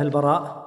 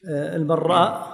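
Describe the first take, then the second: First: The r sound is single and short. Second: The r sound is doubled and held longer. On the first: This is the usual form of the name. "العادة البراء" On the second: The name comes from the trade of shaping arrows. "البراء على خلاف المعتاد"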